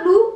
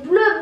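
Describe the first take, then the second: First: English blue, not French bleu. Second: "bleu" said the French way, rounded eu vowel; French bleu, not English blue. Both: Shown as a demonstration. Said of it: "Alors, non, c'est bleu".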